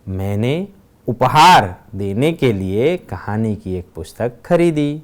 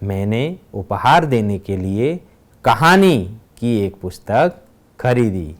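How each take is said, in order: First: The word उपहार carries the stress. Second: The word कहानी carries the stress. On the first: "दूसरे वाक्य में उपहार शब्द पर भार दिया गया है" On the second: "तीसरे वाक्य में कहानी शब्द पर भार दिया गया है"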